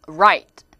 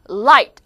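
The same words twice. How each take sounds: First: Loud "right" with tongue pulled back; R sound. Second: Loud "Light" with tongue behind upper teeth; L sound. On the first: Teacher drilling students, "right" with clear r. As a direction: start "right" on r, tongue not touching. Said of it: "들어오는 발음". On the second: Teacher drilling students, "Light" with clear l. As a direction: press the tongue tip to start "Light". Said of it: "요거 발음 한번 해볼게요". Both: Shown as a demonstration.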